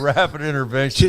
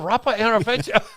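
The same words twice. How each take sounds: First: It is said in an attempted French accent. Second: It is said in a put-on Chinese accent. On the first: "I don't even know how to do a French accent" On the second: "My go-to accent"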